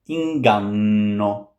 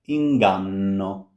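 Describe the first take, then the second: The two takes are said the same way.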